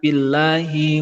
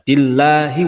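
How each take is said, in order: First: The final vowel is drawn out too long. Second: The final vowel is held only one beat. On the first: The speaker calls it wrong. "hi-nya itu jadi kepanjangan" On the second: The speaker calls it right. "Hi-nya mestinya satu alif saja"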